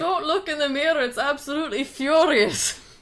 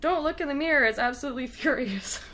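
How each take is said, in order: First: It is said in an imitated Scottish accent. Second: It is said in the speaker's normal accent.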